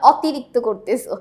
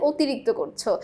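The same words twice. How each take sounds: First: "অতিরিক্ত" starting with an open o as in "hot"; open-vowel wrong demo. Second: "অতিরিক্ত" starting with a closed o, like ও; closed-vowel correct demo. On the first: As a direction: give "অতিরিক্ত" its spelled অ, unrounded toward no ও. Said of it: "আমরা কিন্তু বলি না". ("অতিরিক্ত"-র শুরুতে খোলা, বিবৃত অ) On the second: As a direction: say "অতিরিক্ত" as "otirikto". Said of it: "আমরা বলি". ("অতিরিক্ত"-র অ সংবৃত, ও-এর মতো) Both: Shown as a demonstration.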